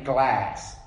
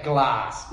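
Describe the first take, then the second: First: GLASS with a flat American A, as in gas. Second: GLASS with a long AH, as in glahss; Australian glass. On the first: Aussie refusing the American word, flat-A GLASS. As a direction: say GLASS to rhyme with mass, American style. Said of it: "We'll always say glass". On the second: Aussie keeping his distinctiveness, long-AH GLASS. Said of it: "We're not saying glass". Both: Shown as a demonstration.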